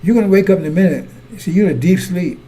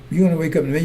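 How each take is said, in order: First: Loud warning. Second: Said in the usual way. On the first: Real, not acted. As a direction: fire the warning out loud and quick. Preacher's loud warning, then repeated.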